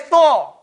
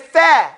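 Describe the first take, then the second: First: The vowel is rounded, with lips pushed forward. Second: The vowel is open, with lips unrounded. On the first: The speaker calls it wrong. "We don't say Thor like they say Thursday" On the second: The speaker calls it right. "so we say tha"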